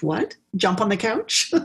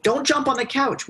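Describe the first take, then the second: First: Cheeky rising echo of the rule; defiant kid. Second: High, sharp mock parent telling a child off; scolding parent. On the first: Retold or imitated. A mischievous five-year-old mocking the rule, cheeky rising question. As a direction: toss the question back like a kid who will do it anyway. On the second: Imitating a parent forbidding a kid the couch, high mock scold. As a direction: play the nagging grown-up, pitched up high.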